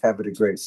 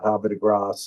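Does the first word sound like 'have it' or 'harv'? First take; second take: have it; harv. First: The first word sounds like 'have it'. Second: The first word sounds like 'harv'. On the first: The speaker calls it right. "I'm going to teach Paul how to say Havre de Grace" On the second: The speaker calls it wrong. "and not Havre de Grace"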